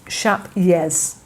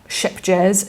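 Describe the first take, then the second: First: Vowel like shape, then a Y sound. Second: Short i vowel, then a hard J sound. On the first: The speaker calls it right. "the J is a Y, ... it's more like shap" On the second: The speaker calls it wrong. "it's not ship jazz"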